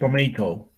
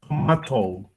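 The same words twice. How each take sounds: First: It is said in an American pronunciation. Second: It is said in a British pronunciation.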